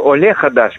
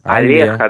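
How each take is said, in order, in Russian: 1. Первый гласный — чёткое 'o'. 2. Первый гласный редуцирован до 'a'. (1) "они не Оле Хадаш говорят" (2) "русскоязычные акают"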